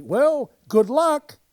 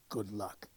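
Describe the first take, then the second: First: Loud, high, hearty good wishes; eager novice cheering everyone on; cheery. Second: Low, much softer forbidden phrase; hushed. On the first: Retold or imitated. New producer addressing the cast, loud hearty cheer. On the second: Shown as a demonstration. Warning about theatre superstition, hushed and low. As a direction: say it as if it's taboo. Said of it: "You never say".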